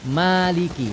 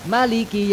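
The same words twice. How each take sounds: First: The first vowel is held long. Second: The first vowel is kept short. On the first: "bacanya panjang. Maliki dua harokat" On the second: "bacanya Malik itu pendek"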